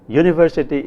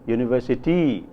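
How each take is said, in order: First: The stress is on the first syllable. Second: The stress is on the last syllable. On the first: "in Tamil English" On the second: "in Adi"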